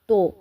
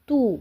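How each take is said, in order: First: The vowel is an open 'oh' sound. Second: The vowel is a rounded 'oo' sound. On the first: The speaker calls it wrong. "ये सही तरीका नहीं है।" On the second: The speaker calls it right. "इस तरह से इसको भी मारूफ तरीके से"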